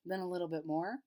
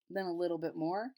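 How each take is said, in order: Both takes have the same delivery.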